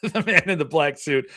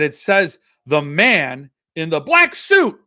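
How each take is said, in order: First: Said in the usual way. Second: "the man in the black suit" slowed down and louder, each word hit; stress on the all caps. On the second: Shown as a demonstration. Showing viewers the typography, slow and loud emphasis. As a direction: read "the man in the black suit" slowly and loudly, every word punched. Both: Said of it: "put the emphasis on the all caps".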